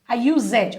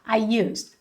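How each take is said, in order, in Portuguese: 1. O som final do d é claramente pronunciado. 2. A terminação é suave e o d é omitido. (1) "Ele não vai ficar I used" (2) "Ele é bem suave no final"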